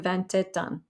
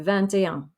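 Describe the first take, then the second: First: A T sound is heard after et. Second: No T sound is heard after et. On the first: The speaker calls it wrong. "So you don't say" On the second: The speaker calls it right. "You just say"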